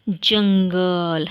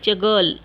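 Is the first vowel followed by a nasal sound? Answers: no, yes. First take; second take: yes; no. First: The first vowel is followed by a nasal sound. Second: The first vowel is said without a nasal sound. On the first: "ज पर हम ये चंद बिंदु लगाएंगे तो क्या होगा" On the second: "जगल पढ़ने में तो अजीब लगता है ना"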